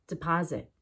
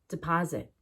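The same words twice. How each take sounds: No difference in how they are said.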